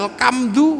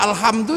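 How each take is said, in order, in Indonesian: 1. Konsonan tengahnya bunyi k. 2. Konsonan tengahnya bunyi h.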